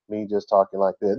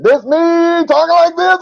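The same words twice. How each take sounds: First: Said in the usual way. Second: Much higher and louder, bursting with excitement; thrilled shout, voice leaping up high; excited outcry. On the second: Shown as a demonstration. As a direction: cry it out like you can't contain yourself. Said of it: "I'm so excited".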